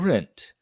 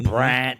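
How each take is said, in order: First: It is said in a northern accent. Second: It is said in a Cajun accent. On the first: "say it like a northerner or someone who speaks well" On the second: "the down the bayou version"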